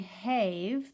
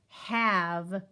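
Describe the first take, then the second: First: The vowel is a long a, rhyming with gave. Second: The vowel is a short a, as in cat. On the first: The speaker calls it wrong. "instead of saying have the way it should" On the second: The speaker calls it right. "letter A has gotten lazy"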